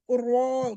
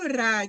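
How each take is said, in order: First: The vowel is a rounded o. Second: The vowel is a thin, open a. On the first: "kalau di Jawa itu ro, ... dia kayak o"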